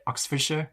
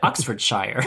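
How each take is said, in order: First: "Oxfordshire" with a short, reduced "-sher" ending; tentative "Oxfordshire", ending unstressed; British pronunciation attempt. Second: "Oxfordshire" with the ending as full "shire", like "shyer"; "Oxfordshire" said as spelled, American-style; American mispronunciation. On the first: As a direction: try "Oxfordshire" softly, last syllable as "sher". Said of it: "Is that how you say it". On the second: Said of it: "an American would say". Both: Shown as a demonstration.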